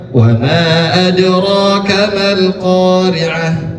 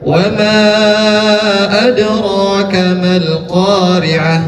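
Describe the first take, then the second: First: The vowel of 'ma' is held two beats. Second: The vowel of 'ma' is held four beats. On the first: "Wa ma bisa juga dibacanya dengan dua harkat" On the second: "Bisa empat harkat"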